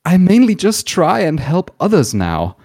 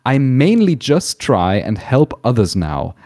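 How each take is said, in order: First: It is read in a dramatic, emotional voice. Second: It is read in a plain voice.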